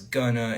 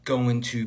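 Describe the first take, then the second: First: The word 'to' is reduced to a vowel. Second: The word 'to' is said in full.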